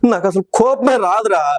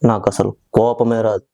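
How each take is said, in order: First: The line is delivered in a crying way. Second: The line is delivered in a serious way. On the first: "sentiment ఏడిస్తే చెప్పండి" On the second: "గంభీరంగా"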